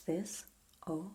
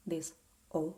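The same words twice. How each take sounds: The two takes are said the same way.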